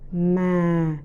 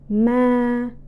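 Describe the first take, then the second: First: The pitch is low and falls. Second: The pitch stays level and flat. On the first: "the second" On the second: "it is the first, the second, and the third tones together"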